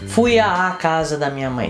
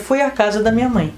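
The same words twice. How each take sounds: First: The 'à' is drawn out and stressed. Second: The 'à' is short and unstressed. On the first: The speaker calls it wrong. "não se pronuncia" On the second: The speaker calls it right. "se pronuncia"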